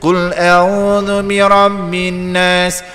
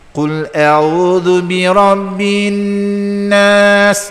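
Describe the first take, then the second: First: The doubled n is short with little nasal hum. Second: The doubled n is held with a long nasal hum. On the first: The speaker calls it wrong. "Ini bacaan orang awam, bacaan orang yang tak belajar" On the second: The speaker calls it right. "wajib al-gunnah"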